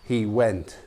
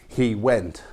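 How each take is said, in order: The two takes are said the same way.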